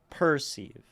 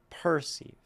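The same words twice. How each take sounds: The two takes are said the same way.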